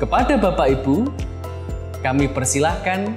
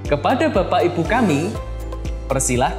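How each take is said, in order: First: There is a pause right after the word Ibu. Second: There is a pause right after the word kami. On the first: We invite the ladies and gentlemen to sit. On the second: Our parents are invited to sit.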